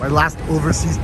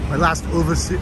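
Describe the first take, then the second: First: It is said in the speaker's normal accent. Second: It is said in a put-on Austrian accent. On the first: "I can't do it like Arnold" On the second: "I feel Arnold coming on"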